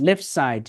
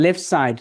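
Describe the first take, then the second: The two takes are said the same way.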